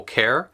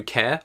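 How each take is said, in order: First: Care with the final r sounded; rhotic care. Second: Care as "keh", no final r; non-rhotic care. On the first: Echoing the other accent, rhotic care. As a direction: curl into the r at the end of care. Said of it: "whereas a rhotic accent". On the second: Asking viewers why it matters, non-rhotic care. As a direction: leave care open, r silent. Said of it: "Mine is non-rhotic". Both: Shown as a demonstration.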